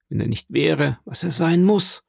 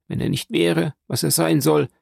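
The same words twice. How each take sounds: First: Understated menace, rising onto "muss"; grimly insistent, lifting the final "muss"; dreadful expression. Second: Said in the usual way. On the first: A narrator's reading. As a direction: let a touch of dread land on "muss". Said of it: "mit einem furchtbaren Ausdruck". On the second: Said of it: "fügte die alte Frau mit einem furchtbaren Ausdruck hinzu".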